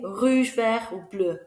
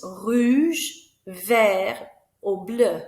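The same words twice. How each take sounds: First: Said in the usual way. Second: "rouge" and "vert" rising and louder, "bleu" falling; louder choice question. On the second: Shown as a demonstration. Teacher offering pupils a colour choice, rise then fall. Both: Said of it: "ask the children what colour they're having".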